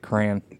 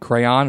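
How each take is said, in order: First: The word is said with one syllable. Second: The word is said with two syllables. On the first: "or do you say crayon?" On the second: "Do you put the extra syllable in crayon"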